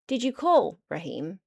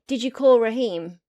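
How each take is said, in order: First: There is a pause just before the name. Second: It runs on without a pause before the name. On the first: Raheem is the person being addressed. "this is as if we're talking to Raheem" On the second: Asks whether someone phoned Raheem. "did you call the person called Raheem?"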